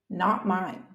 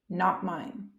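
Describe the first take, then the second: No difference in how they are said.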